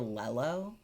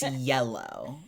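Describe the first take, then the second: First: The word begins with an L sound. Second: The word begins with a Y sound. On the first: The speaker calls it wrong. "kids would say "lello,"" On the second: The speaker calls it right. "It's yellow"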